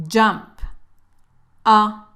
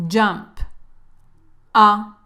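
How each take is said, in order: The two takes are said the same way.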